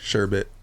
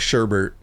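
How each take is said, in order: First: The second syllable has no r sound. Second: The second syllable has an added r sound. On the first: The speaker calls it right. "It's a commonly misspelled, mispronounced word" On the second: The speaker calls it wrong. "not Sherbert"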